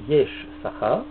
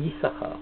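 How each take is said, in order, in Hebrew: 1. מתחיל ב-'yesh', ומפריד את 'sachar'. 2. מתחיל ב-'yis', מילה אחת 'yissachar'. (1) "ואנחנו לא קוראים יש שכר" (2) "כשקוראים בתורה אומרים יששכר"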